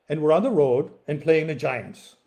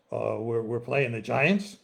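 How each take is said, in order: First: Said in the usual way. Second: Slow, puzzled "the Giants?" rising at the end; incredulous echo. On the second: A narrator's reading. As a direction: repeat "we're playing the Giants?" slowly in disbelief. Joe echoes in disbelief.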